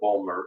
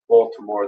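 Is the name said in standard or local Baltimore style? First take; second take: local; standard. First: It is said the clipped local Baltimore way. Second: It is said in a standard pronunciation.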